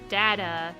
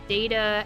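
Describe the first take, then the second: First: The first vowel sounds like the one in 'dad'. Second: The first vowel sounds like the one in 'day'. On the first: "as in dad" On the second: "as in daytime"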